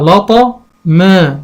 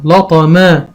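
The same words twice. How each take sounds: First: لطا ما drawn out slowly in two parts; slow blending. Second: Said in the usual way. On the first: Shown as a demonstration. Teacher blending syllables for a child, slowly. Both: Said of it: "هقول إيه".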